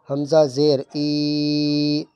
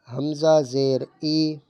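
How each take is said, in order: First: The final vowel is stretched out long. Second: The final vowel is short and smooth. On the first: The speaker calls it wrong. "ये गलत हो रहा है, खींचना नहीं है" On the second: The speaker calls it right. "ना झटका देंगे और ना खींच के पढ़ेंगे"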